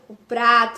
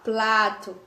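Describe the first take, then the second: First: The word is said with an r after p. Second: The word is said with an l after p. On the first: The speaker calls it right. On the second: The speaker calls it wrong.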